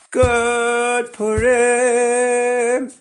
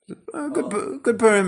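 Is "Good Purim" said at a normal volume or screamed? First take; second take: screamed; normal. First: It is screamed at full volume. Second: It is said at a normal speaking volume. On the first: The speaker calls it right. "Scream it" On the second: The speaker calls it wrong. "no, not like that"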